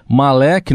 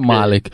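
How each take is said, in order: First: The name is said the common international way. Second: The name is said the Arabic way. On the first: "eu tô acompanhando a pronúncia mundial" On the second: "mas em árabe a gente fala Malek"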